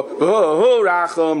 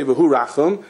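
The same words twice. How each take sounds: First: V'hu Rachum drawn out very slowly, each syllable held long; slow, lengthened chant of V'hu Rachum; stretched out slowly. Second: Said in the usual way. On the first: Shown as a demonstration. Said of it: "You stretch it out". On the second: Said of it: "you don't just say".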